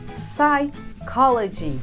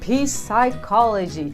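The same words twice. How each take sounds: First: The P at the start is silent. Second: The P at the start is pronounced. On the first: The speaker calls it right. "O P é mudo, a gente não pronuncia ele" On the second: The speaker calls it wrong. "Stop saying"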